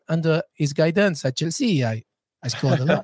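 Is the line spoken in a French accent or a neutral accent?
French. It is spoken in an imitated French accent.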